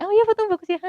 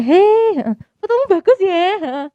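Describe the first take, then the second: First: High, insincere, sing-song praise; mock fake "Oh iya"; fake compliment. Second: High, loud, cheerful greeting; much higher, delighted "Hei"; bright sincere compliment. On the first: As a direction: say "fotomu bagus ya" as hollow politeness. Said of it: "Nggak kayak". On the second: Retold or imitated. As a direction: genuinely praise the photo. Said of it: "Ketemu temanku setelah itu".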